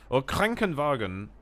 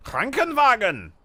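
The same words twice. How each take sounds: First: Said in the usual way. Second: Krankenwagen bellowed high and slow; shouted German word. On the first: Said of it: "directly translates into pain". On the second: Shown as a demonstration. Streamer shouting Krankenwagen for chat. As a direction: yell Krankenwagen like an angry German. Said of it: "I love how you shout the words".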